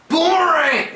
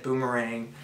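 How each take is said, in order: First: Much higher, loud triumphant shout of Boomerang. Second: Said in the usual way. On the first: Acted. Teammate calling out the signal to win, triumphant shout. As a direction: yell Boomerang to claim the win. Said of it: "I should say boomerang". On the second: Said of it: "you gotta watch when you say boomerang".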